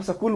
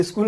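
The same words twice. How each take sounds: First: सकूल with a short a vowel breaking up s and k; सकूल said as sa-kool, two syllables; Haryana style school. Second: स्कूल said with a tight sk cluster, no vowel before it; स्कूल as one syllable, s straight into k; standard school. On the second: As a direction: standard Hindi स्कूल with a clean sk start. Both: Shown as a demonstration. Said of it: "Haryana राज्य में स्कूल को यहाँ पे सकूल बोलते हैं".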